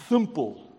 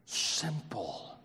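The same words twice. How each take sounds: First: Simple in a playful Bronx accent. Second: Said in the usual way. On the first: Shown as a demonstration. Preacher clowning over the word simple, mock Bronx accent. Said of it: "best Bronx accent right there".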